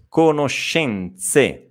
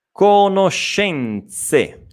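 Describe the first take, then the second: First: "conoscenze" slowly with a clear ts before the final e; slow repeat. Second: "Conoscenze" drawn out very slowly, sh then ts; very slow model word. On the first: Teacher repeating "conoscenze" at a calmer pace. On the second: Teacher very slowly modelling "Conoscenze". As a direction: spell out every sound of "Conoscenze". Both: Shown as a demonstration. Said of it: "questa E è sorda".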